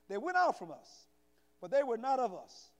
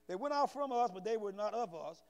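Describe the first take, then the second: First: The words are read at a slower pace. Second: The words are read at a fast pace. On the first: The speaker calls it right. "Let me slow down" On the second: The speaker calls it wrong. "I know I'm reading fast"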